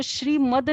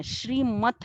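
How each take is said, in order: First: श्रीमद ending in a voiced d; soft D ending. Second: श्रीमत ending in an unvoiced t; hard T ending. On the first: Teacher rejecting the mistaken word to students, श्रीमद with voiced d ending. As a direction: say श्रीमद with a final द sound. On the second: Teacher giving students the correct word, श्रीमत with t ending. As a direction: say श्रीमत with a crisp final त sound. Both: Shown as a demonstration. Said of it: "वो श्रीमद नहीं है, श्रीमत है".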